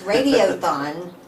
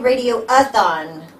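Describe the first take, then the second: First: No extra syllable comes before the ending. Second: An extra syllable comes before the ending. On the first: The speaker calls it right. "It's Radiothon. Got to say it right" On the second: The speaker calls it wrong. "Don't say Radio-a-thon"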